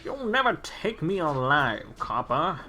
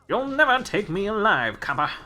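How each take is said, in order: First: Mobster accent with slung vowels and changing tune. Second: Plain voice with a sharp downward pitch. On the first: "I noticed the slings there" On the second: "normally for like commentary stuff, it's like a sharp pitch downward"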